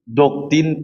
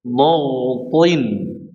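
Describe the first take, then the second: First: The first consonant sounds light, like a plain d. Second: The first consonant sounds heavy and thick. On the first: The speaker calls it wrong. "jangan jangan doktin kid salah ya nanti sama dengan huruf dot" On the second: The speaker calls it right. "Ini pengucapannya harus tebal nih"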